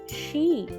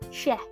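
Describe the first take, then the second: First: The vowel is a long 'ee' sound. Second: The vowel is a short 'eh' sound. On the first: The speaker calls it right. "we are learning about long vowel E. So the sound is" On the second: The speaker calls it wrong. "that is the sound of short vowel E"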